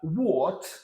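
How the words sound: It is said with a British accent.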